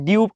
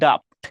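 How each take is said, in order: First: The vowel sounds like 'yoo' after d. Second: The vowel sounds like 'uh' after d. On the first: The speaker calls it wrong. "কেউ কেউ ডিউপড বলবা" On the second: The speaker calls it right. "আসলে প্রকৃত উচ্চারণ হচ্ছে ডাফট"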